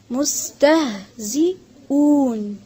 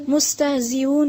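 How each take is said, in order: First: مستهزئون in slow separated syllables, mus-tah-zi-oon; correct pronunciation. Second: مستهزئون run together quickly without held sounds; wrong pronunciation. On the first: Teacher models correction, مستهزئون syllable by syllable. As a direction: sound out مستهزئون piece by piece with a clear h. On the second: Teacher shows the mistake to avoid, مستهزئون rushed together. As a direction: say مستهزئون fast and unchanted, syllables merged. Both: Shown as a demonstration. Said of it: "نہیں ہے،".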